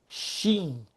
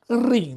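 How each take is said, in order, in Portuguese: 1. A palavra começa com um som de sh. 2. A palavra começa com um som de r. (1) "nós em português pronunciamos shin" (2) "no hebraico a pronúncia correta seria rim"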